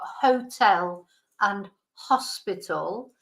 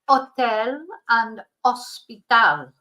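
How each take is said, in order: First: The words are said with an English accent. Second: The words are said with a Spanish accent. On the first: "So in English, you've got" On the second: "but in Spanish, they're pronounced so"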